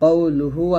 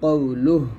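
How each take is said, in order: First: The word ends with a final u vowel. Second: The word ends on a bare h sound. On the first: Reading continues without stopping. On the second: The reader stops at this word.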